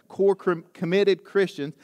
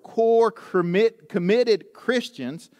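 First: The phrase is said at a fast pace. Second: The phrase is said at a normal pace.

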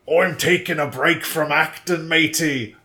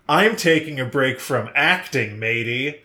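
First: It is spoken with an Australian accent. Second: It is spoken with an American accent. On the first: "The first one is Australian" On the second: "here's a totally normal American accent"

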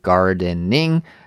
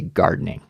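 First: The word is said slowly with three clear syllables. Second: The word is said quickly with the syllables squeezed together. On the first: "instead of saying gardening" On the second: "we just say gardening"

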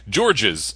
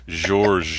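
First: The name is said the English way. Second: The name is said the French way. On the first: The speaker calls it wrong. "They keep saying George's. Like, no, it's not George's" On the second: The speaker calls it right. "It's George"

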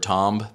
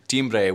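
First: The word is said with a French pronunciation. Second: The word is said with a Spanish pronunciation. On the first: "that's the French pronunciation"

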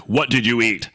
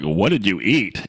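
First: The question sounds harsh and accusing. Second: The question sounds curious and friendly. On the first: The listener is being blamed for what they ate. The speaker calls it wrong. "not accusatorily, like" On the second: A genuine, non-judgmental question about food. The speaker calls it right. "they can hear me say it like that, not accusatorily"

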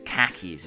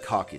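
First: It is said with an American accent. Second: It is said with a British accent.

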